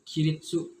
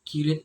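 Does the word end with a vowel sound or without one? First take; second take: with vowel; without one. First: The word ends with a full tsu syllable. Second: The final vowel is dropped, ending on t. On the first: "sebenarnya dibacanya kiritsu" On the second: "kata senseinya untuk penyebutannya menjadi kirit"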